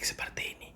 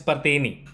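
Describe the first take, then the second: First: It is spoken in a soft whisper. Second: It is spoken loudly and forcefully. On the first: "berbisik-bisik seperti ini" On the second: "gue bicara kencang seperti ini"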